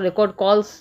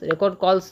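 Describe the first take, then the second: No difference in how they are said.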